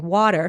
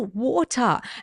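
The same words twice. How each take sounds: First: It is said in an American accent. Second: It is said in a non-American accent.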